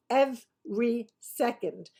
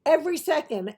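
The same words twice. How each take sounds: First: "Every second" slowly broken up syllable by syllable; slow emphatic repeat. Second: "Every" punched higher and louder; emphatic EVERY. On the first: Insisting she's really not kidding, slow spaced-out "Every second". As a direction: spell out "Every" in separate beats, then a slow "second". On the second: Stressing to viewers that she watched it all, emphatic "Every". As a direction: hit "Every" hard, high and quick into "second". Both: Real, not acted.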